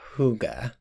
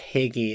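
First: The word does not sound like 'higgy'. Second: The word sounds like 'higgy'. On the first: The speaker calls it right. "It's actually pronounced more like Hygge" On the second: The speaker calls it wrong. "It's often mispronounced Higgy"

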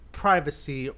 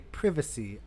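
First: It is said in a plain American accent. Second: It is said in a British accent.

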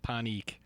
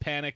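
First: It sounds different from the English word panic. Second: It sounds exactly like the English word panic. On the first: This is how the person's own people say it. The speaker calls it right. "but they pronounce it panik" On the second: This is how the spelling would suggest it is said. The speaker calls it wrong. "You would think it's panic"

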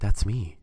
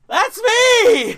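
First: It is said calmly, without much energy. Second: It is said loudly, with excited energy. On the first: The speaker calls it wrong. "I don't say it like that, though" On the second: The speaker calls it right. "I say, ... except 100 times louder"

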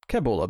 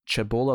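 First: The word begins with a k sound. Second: The word begins with a ch sound.

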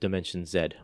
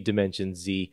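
First: The letter is said as zed, Canadian style. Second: The letter is said as zee, American style.

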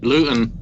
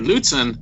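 First: The middle T is dropped, not clearly pronounced. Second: The middle T is pronounced clearly and carefully. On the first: Listeners here would not understand the word. The speaker calls it wrong. "then they won't know what the heck I'm talking about" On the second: Listeners here would understand the word. The speaker calls it right. "they have a clear understanding of what at least I'm saying"

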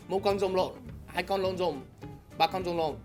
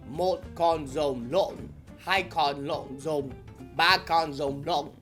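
First: It is said fast. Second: It is said slowly.

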